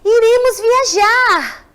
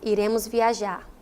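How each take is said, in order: First: It is said in an excited, enthusiastic tone. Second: It is said in a flat, neutral tone. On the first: The speaker is thrilled about the trip. "eu fiquei entusiasmada" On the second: It is a plain statement of fact. "Se não fosse esse ponto, ia ficar como?"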